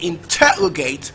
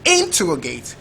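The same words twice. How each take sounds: First: The stress is on the second syllable. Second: The stress is on the first syllable. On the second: "First label"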